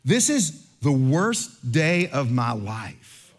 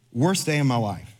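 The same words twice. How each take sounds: First: Slow, drawn-out self-pitying moan; mock despair. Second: Said in the usual way. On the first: Traveler whines to the pastor about his lost laptop, slow self-pitying moan. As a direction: stretch every word like a tragic victim. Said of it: "he says this line".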